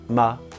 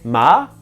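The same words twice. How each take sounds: First: The syllable is said light, with no tone. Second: The syllable is said with a rising tone. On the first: "ton neutre" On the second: "deuxième ton"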